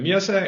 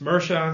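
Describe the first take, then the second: First: The name is said with a Danish pronunciation. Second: The name is said with an American pronunciation. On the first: "it's usually in Danish" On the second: "in the U S"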